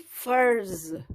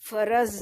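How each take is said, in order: First: The final r and z are joined directly. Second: An extra vowel separates the final r and z. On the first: The speaker calls it right. "बल्कि फर्ज" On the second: The speaker calls it wrong. "फरज नहीं पढ़ेंगे"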